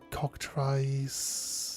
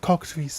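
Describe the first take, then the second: First: The 'i' vowel is prominent, in an American accent. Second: The 'i' vowel is soft, in a British accent. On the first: This is how Americans say it. "They might call it cockatrice. ... very partial to a prominent I" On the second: This is how British speakers say it. "we use the soft I more"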